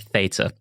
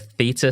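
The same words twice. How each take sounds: First: Theta is said in an American accent. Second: Theta is said in a non-American accent.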